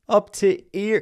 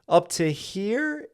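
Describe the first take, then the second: First: The h sound in 'here' is dropped. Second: The h sound in 'here' is pronounced.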